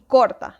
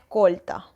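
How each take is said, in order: First: The r before the t sounds like an r. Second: The r before the t sounds like an l. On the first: "y corta, debería ser" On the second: "la vida es corta"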